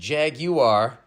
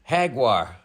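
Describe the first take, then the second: First: It is said in a British pronunciation. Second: It is said in a Spanish pronunciation. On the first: "the Redcoats pronounce it Jaguar" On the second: "in Spanish it's pronounced Jaguar"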